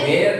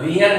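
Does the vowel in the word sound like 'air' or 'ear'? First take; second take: air; ear. First: The vowel sounds like the word 'air'. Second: The vowel sounds like the word 'ear'. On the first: The speaker calls it right. "वेयर का मतलब होता है पहनना" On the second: The speaker calls it wrong. "वियर नहीं होता"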